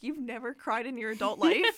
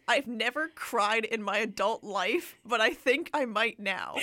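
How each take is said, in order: First: Laughing disbelief, rising at the end; incredulous retort. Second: Slow, a bit louder, mildly earnest; quoted tearful confession. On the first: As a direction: scoff at the line, half laughing. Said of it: "I was like". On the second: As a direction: lightly read the hero's teary line, drawn out. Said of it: "He says". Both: Retold or imitated.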